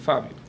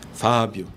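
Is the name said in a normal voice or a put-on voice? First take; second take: normal; put-on. First: It is said in an ordinary speaking voice. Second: It is said in a put-on, imposing voice. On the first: An ordinary person is calling the name. "eu chegar pra você e falar assim" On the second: God is calling the name. "Aquela voz, né?"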